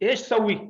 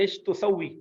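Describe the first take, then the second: First: The verb starts directly with 'sa', no 'tu'. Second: The verb starts with a 'tu' syllable. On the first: This is the fast colloquial form. "ते को खा के और फिर इस तरह बोल लेते हैं" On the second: This is the actual full word. "असल में लफ्ज़ है"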